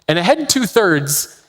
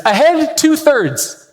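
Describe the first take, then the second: First: Said in the usual way. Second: High, slow drawn-out order; captain's command. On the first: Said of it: "means that the ship should be powered". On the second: Retold or imitated. Captain giving an order to the crew, slow called-out command. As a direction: call it out like a captain on deck. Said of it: "when the captain yells out an order".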